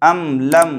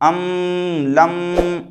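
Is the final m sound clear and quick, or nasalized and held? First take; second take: clear; nasalized. First: The m sound is clear, quick, and unnasalized. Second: The m sound is nasalized and held longer. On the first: The speaker calls it right. "मीम साकिन की आवाज़ को जाहिर करके बग़ैर गुन्ना के जल्द पढ़ेंगे" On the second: The speaker calls it wrong. "ऐसे नहीं पढ़ेंगे"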